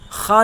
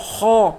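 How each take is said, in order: First: The letter is pronounced light and thin. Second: The letter is pronounced heavy and full. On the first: The speaker calls it wrong. "खा नहीं पढ़ेंगे" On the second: The speaker calls it right. "बल्कि खो खो"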